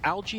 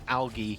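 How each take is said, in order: First: It is said with the American pronunciation. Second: It is said with the European pronunciation. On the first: "algae American" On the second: "algae European"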